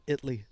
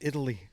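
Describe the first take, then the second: First: The middle vowel is dropped, leaving two syllables. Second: All three syllables are said, with the middle vowel. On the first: "what happened to the A? Is it just spelled I T L Y?" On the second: "it is Italy"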